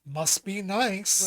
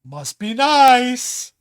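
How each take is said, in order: First: Slow, drawn-out sarcastic jab, at normal level; snide remark. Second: Very slow, louder, drawn-out snide jab; snide remark. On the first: Someone responds to the host's good news with slow sarcastic envy. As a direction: drag it out, mock-envious. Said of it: "someone else goes". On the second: Someone envies another's success, slow drawn-out sarcasm. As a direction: stretch it out with sarcastic envy. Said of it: "I'm hearing this a lot". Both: Retold or imitated.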